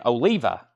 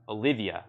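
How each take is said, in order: First: The name is said with three syllables. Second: The name is said with four syllables. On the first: The speaker calls it right. "that's it" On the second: The speaker calls it wrong. "I used to say Olivia, then I realized there's no another I"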